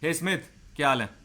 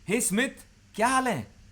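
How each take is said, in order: First: It sounds cold and distancing. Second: It sounds warm and friendly, rising upward.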